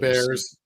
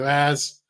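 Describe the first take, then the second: First: It is said in a general American accent. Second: It is said in an exaggerated Boston accent.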